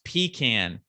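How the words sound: It is said the Southern way. The speaker calls it right. "if you married a Southern woman, is pronounced pecan"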